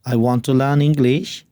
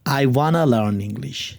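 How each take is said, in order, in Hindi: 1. 'want to' को दो पूरे शब्दों की तरह बोला जाता है। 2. 'want to' एक शब्द में मिलकर 'wanna' हो जाता है।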